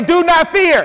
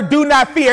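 First: Higher, ringing call to repeat; out-loud declaration. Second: Said in the usual way. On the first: Shown as a demonstration. Preacher urges congregation to face their situations, out-loud declaration. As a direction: proclaim it so the whole room echoes. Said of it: "you're gonna have to say that out loud".

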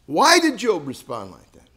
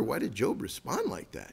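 First: "Why" hit hard, louder; emphatic question. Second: Soft, wondering question; quiet musing. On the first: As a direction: press the question on them, stressing "Why". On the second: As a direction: ask it softly to yourself. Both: Shown as a demonstration. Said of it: "You might wonder".

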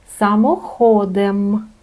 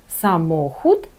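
First: Самоходом stressed on HO, drawn out slowly; slow Polish sa-mo-HOOO-dem; stress on second-last syllable. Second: Самохід stressed on MO; stress on second-last syllable. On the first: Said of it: "падає на другий склад". (повільно, наголос: само-ХО-дем) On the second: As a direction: Polish sa-MO-hut, the middle syllable stressed. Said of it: "Наголос все одно падає на другий склад". (наголос на середній склад: са-МО-хут) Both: Shown as a demonstration.

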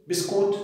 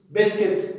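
First: بسكوت said the Egyptian way, biskut, with a long u; Egyptian Arabic word. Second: بسكت said the English way, besket, short e sounds; English loanword. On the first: Teacher to parents, giving the Egyptian word, biskut. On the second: Teacher to parents, giving the child's English word, besket. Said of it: "عارف بسكت". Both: Shown as a demonstration.

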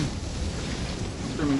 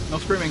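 First: Slow, breathless whisper to stay quiet; stretched, whispered self-warning. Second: Said in the usual way. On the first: Real, not acted. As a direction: hush yourself so nothing hears you. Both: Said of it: "No, no, no screaming".

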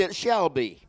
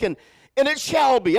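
First: Said in the usual way. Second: "shall" lifted high and held; preacher's emphasis on "shall"; stress on shall. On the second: Shown as a demonstration. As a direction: lean on "shall" with a rising voice. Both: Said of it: "Everybody say".

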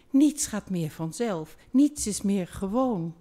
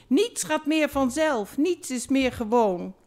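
First: Lightly pleaded down the phone; a hint of a remorseful lover begging; mild pleading. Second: Higher, louder lament, hammed-up crying; a theatrical sob-voice on the phone; mock crying. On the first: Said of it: "smeekte door de telefoon". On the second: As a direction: wail the lines like a heartbroken lover. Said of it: "Nu huilde hartwang per telefoon".

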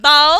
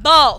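First: Bow rhyming with cow; OW as in how. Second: Bow rhyming with go; O as in tomorrow. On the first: Teacher reviewing the how column, bow with OW. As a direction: say bow alone with the "ow" glide. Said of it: "Pronounced as in how". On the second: Teacher reviewing the tomorrow column, bow with long O. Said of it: "pronounced as in tomorrow". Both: Shown as a demonstration.

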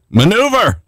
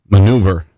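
First: MANEUVER swooping up high and falling; exclaimed. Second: Said in the usual way. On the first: Real, not acted. Preacher seizing on a word for the spirit realm, MANEUVER exclaimed.

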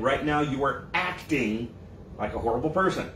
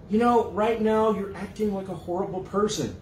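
First: Slow and low, each word laid down; lower, deliberate correction; slow emphatic restatement. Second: A plain, level rebuke in a slightly changed voice; mildly voiced calm reply. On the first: Shown as a demonstration. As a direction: spell out what was really said. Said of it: "that's not what was said". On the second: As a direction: state it evenly, as the one accused. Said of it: "You might say".

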